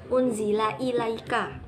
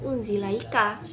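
First: The two words are said separately and fully. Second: The two words are merged, dropping a syllable. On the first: The speaker calls it right. "unzila ilaika bukan unzilaika" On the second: The speaker calls it wrong. "bukan unzilaika"

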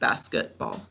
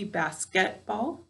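First: The middle syllable's vowel is reduced and weak. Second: The middle syllable's vowel is said clearly and fully. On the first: This is how it sounds in ordinary speech. "sometimes when we're speaking, it sounds like more like basketball" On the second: This is the careful saying used to help with spelling. "so to spell this, we need to say it with me"

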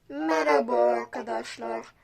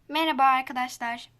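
First: The voice is processed to sound very deep. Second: The voice sounds natural, without pitch processing. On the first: "Bu çok kalın oldu" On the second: "Şimdi normal sesime döndüm"

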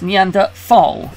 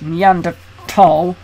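First: The middle consonant is a th sound. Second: The middle consonant is a plain t sound. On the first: This is the way the speaker had always heard it. "I've always heard to it as Neanderthal" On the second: This follows the French and German way of saying it. "I noticed that in your lectures you used Neanderthal"

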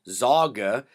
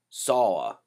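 First: The middle consonant is a hard g sound. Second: The middle consonant is a y sound. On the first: The speaker calls it wrong. "like you might think it would be" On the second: The speaker calls it right. "so it makes a Y sound"

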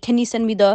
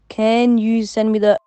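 First: The phrase is said at a normal speed. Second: The phrase is said slowly and deliberately.

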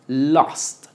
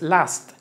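First: The vowel is open, between o and a. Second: The vowel is a plain a sound. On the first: The speaker calls it right. "Es una O con boca de A" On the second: The speaker calls it wrong. "tampoco es last"

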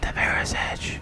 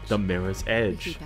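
First: It is said in a soft ASMR whisper. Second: It is said in a normal voice.

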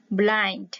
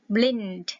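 First: The vowel sounds like 'eye'. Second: The vowel sounds like 'ee'. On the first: The speaker calls it right. "mà là blind" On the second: The speaker calls it wrong. "không phải là blind"

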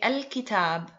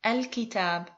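First: It begins with a full 'al' sound. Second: It begins with a full 'al' sound.

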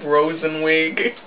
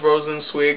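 First: The name has no s before the final syllable. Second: The name has an s before the final syllable. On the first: The speaker calls it wrong. "I've been pronouncing his name Rosenwig. It doesn't sound like that" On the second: The speaker calls it right. "I think it's Rosenswig"

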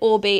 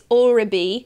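First: The B sound comes before the I sound. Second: The B sound comes after the I sound. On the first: The speaker calls it wrong. "I got the I and the B the wrong way around" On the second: The speaker calls it right. "it's Orbi"

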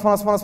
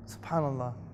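First: It is said very fast, rattled off. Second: It is said slowly and with feeling.

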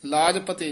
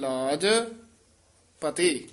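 First: The last word ends with an 'e' vowel. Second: The last word ends with an 'i' vowel. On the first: The speaker calls it wrong. "ਨਹੀਂ ਕਹਿਣਾ" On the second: The speaker calls it right. "ਰੱਖੋ ਮੇਰੀ ਲਾਜ ਪਤੀ"

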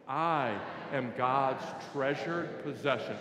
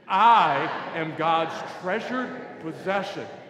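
First: It is mumbled quietly and unclearly. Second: It is said loudly and with conviction.

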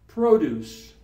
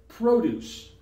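The two takes are said the same way.

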